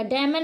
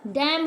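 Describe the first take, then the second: First: डैमन with N sounded, "dam-an"; wrong pronunciation. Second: डैम ending on M; silent N. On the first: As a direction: end डैमन on an N. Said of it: "डैमन नहीं होगा". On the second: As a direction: drop the N in डैम. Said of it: "डैम हो जाएगा". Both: Shown as a demonstration.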